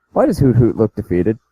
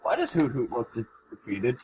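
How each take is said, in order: First: Full-volume question, clearly audible; audible question, right on the mic; speaking into the mic. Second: Quiet question that barely carries; too quiet to hear. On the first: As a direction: repeat it up so everyone can hear. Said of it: "you need to talk in your mic". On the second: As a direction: ask it barely audibly, away from the mic. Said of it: "can't hear a fucking thing you're saying". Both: Real, not acted.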